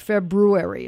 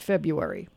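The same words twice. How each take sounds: First: The R after the B is clearly pronounced. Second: The R after the B is dropped. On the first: The speaker calls it right. "You forgot the R" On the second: The speaker calls it wrong. "It's not February"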